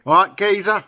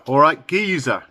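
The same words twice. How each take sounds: First: Higher, louder Cockney greeting; broad Cockney, "geezer" sounding like "gayzer". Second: A hint of Cockney greeting; lightly voiced Cockney. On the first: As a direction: hail a mate in broad East End Cockney. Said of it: "they talk like that". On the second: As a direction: greet them with mild East End Cockney. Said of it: "Cockney, East End of London". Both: Shown as a demonstration.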